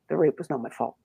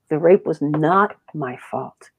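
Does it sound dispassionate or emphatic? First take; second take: dispassionate; emphatic. First: It is said flatly, without feeling. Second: It is said forcefully, with conviction.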